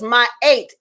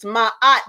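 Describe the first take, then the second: First: The name sounds like 'my eight', two vowels. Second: The name sounds like 'mot', a short vowel. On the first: The speaker calls it right. "the correct pronunciation is" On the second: The speaker calls it wrong. "You might have heard the name mispronounced"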